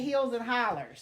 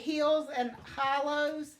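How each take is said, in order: First: The last word ends with an 'er' sound. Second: The last word ends with an 'oh' sound. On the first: This is how the local community says it. "We say hills and hollers. Hollers with an E R on the end" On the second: This is how most people say it. "people say hills and hollows"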